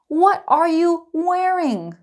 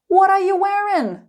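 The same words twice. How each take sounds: First: It is said slowly with every word clear. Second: It is said quickly with the words run together. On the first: "Slow and clear" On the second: "Let's speed it up"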